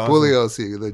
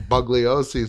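First: The G in the name is silent. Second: The G in the name is pronounced. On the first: The speaker calls it right. "But it's Bugliosi" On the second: The speaker calls it wrong. "He calls him Bugliosi through the whole thing"

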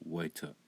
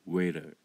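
First: The middle t is a clear t. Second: The middle t is a quick flap. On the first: "ブリティッシュアクセントだと" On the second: "アメリカンアクセントだと"

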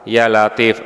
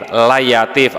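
First: The two words are pronounced clearly and separately. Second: The words are slurred together into one word. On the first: The speaker calls it right. "bukan ya latif" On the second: The speaker calls it wrong. "Jadi layatif bukan ya latif karena ngantuk"

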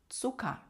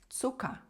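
The two takes are said the same way.

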